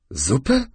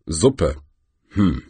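First: „Suppe?“ mit steigender, ungläubiger Frage; „Suppe?“ verwundert nachfragen. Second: „Suppe.“ tiefer, fallend und brummig; „Suppe.“ nachdenklich brummen; brummend. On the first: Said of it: "wiederholte der Troll". („Suppe?“ ungläubig fragend) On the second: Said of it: "brummte der größte Felsen". („Suppe.“ tief gebrummt) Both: Acted.

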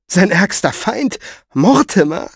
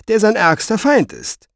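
First: Slow, high, rising questions; disbelieving, drawn-out query; incredulous. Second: Raised pitch falling firmly at the end; pointed explanation; emphatic statement. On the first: A narrator's reading. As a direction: echo it in sheer disbelief. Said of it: "Wie ungläubig sie die Stirn runzelte". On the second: Acted. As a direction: state it as grim fact. He explains the danger.

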